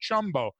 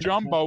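First: The word starts with a voiceless ch sound. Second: The word starts with a voiced j sound. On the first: The speaker calls it wrong. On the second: The speaker calls it right.

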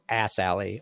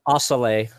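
First: The name is split into 'Ass Alley'. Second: The name is said smoothly like 'Asale'. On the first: This is the joking reading of the name. "but it is Ass Alley, 100%" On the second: This is likely the real pronunciation. "Probably something like Asale"

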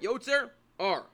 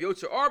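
First: A small pause separates the two words. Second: The two words run together without a pause. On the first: It is heard as the blessing's intended words. The speaker calls it right. "One has to make a small little break between the words Yotzer and R" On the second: It could be heard as a curse. The speaker calls it wrong. "Instead of Yotzer R"

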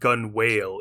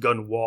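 First: The second part sounds like 'whale'. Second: The second part sounds like 'wall'. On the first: The speaker calls it wrong. "I always thought gun whale in my head" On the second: The speaker calls it right. "it was pronounced gun wall"

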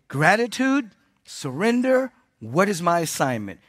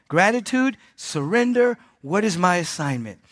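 Both takes have the same delivery.

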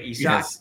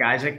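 First: It sounds unlike the English name Isaac. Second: It sounds like the English name Isaac. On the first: The speaker calls it right. "but Isak" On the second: The speaker calls it wrong. "Like Isaac"

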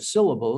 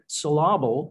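First: The stress falls on the first syllable. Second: The stress falls on a later syllable. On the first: The speaker calls it right. "instead of syllable" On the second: The speaker calls it wrong. "you'd say you're emphasizing the wrong part of the word"

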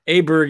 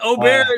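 First: The name is said with an English pronunciation. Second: The name is said with its original pronunciation. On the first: "Aberg is the English pronunciation to me" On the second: "Aubert is technically correct"

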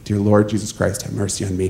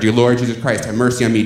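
First: It is said at a quieter volume. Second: It is said at a louder volume.

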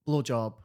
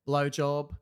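First: It is said in a Scottish accent. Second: It is said in an Australian accent.

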